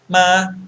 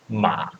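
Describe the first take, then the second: First: It is said with the first tone. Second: It is said with the third tone.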